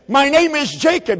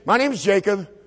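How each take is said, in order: First: It is said in an intense, earnest way. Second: It is said in a flat, bored way. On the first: The answer is a desperate, momentous confession. The speaker calls it right. "something like this" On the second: The answer carries no weight. The speaker calls it wrong. "don't read this in a boring way"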